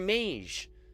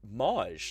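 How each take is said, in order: First: The vowel is a long A sound. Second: The vowel is a soft, short A sound. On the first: The speaker calls it right. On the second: The speaker calls it wrong.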